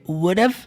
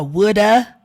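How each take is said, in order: First: It ends with a short v sound. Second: It ends with an uh sound, no v. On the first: "Só com o somzinho do V" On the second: "ficar woulda e shoulda desse jeito"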